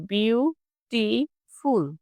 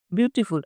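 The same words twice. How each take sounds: First: beautiful as বিউ, টি, ফুল, slow and separate; split into syllables. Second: Said in the usual way. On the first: Shown as a demonstration. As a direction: break beautiful into three drawn-out beats. (Beautiful তিন ভাগে ভেঙে ধীরে উচ্চারণ) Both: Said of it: "মানে একবারে যে".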